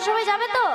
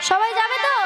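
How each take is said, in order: First: The question is said quietly, without much force. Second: The question is said loudly, with strong force. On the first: The speaker calls it wrong. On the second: The speaker calls it right.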